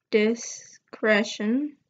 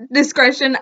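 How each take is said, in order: First: "discretion" said slowly and carefully, sounding out each syllable; unsure pronunciation. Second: "Discretion" said quickly in one go; just say "Discretion" plainly; confident retry. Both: Shown as a demonstration. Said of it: "I think that's how you say it".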